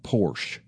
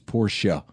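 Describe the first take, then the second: First: The word is said with one syllable. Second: The word is said with two syllables. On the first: The speaker calls it wrong. "It's not Porsche" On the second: The speaker calls it right. "it is a two-syllable word, right? It's Porsche"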